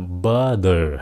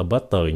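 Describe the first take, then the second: First: "Butter" slow, the T softened to a D; correct soft T. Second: "butter" with a clear hard T; wrong T. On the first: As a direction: model "Butter" like "budder". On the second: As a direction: mispronounce "butter" with a sounded T. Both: Shown as a demonstration. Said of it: "không phải là butter nha".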